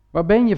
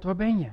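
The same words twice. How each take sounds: First: Waar ben je called out with more force; louder call. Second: A quiet first call of Waar ben je, no push; soft call. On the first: God calling the hiding man again, louder. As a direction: lift the second Waar ben je into a firm call. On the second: God softly calling the hiding man, quiet. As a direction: ask Waar ben je gently under the breath. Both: Retold or imitated.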